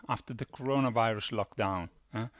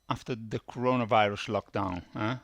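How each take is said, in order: Both takes have the same delivery.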